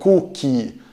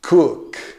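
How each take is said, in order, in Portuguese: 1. Um som de vogal extra segue a consoante final. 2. A palavra termina de repente na consoante surda. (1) "cuidado para não pronunciar walkie ou cookie" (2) "leve fechamento das pregas vocais, não tem de fato sonoridade"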